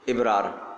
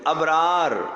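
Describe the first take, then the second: First: The first vowel is an 'i' sound. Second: The first vowel is an 'a' sound. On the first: The speaker calls it wrong. "लोग इसको इबरार पढ़ते हैं, ये भी गलत है। इबरार नहीं भाई" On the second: The speaker calls it right.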